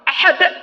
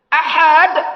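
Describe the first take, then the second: First: The second vowel is kept short. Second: The second vowel is drawn out long. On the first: It means one, as in God is One. The speaker calls it right. "ahad pendek hanya esa" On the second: It implies weak, as in a weak hadith. The speaker calls it wrong. "Kalau panjang"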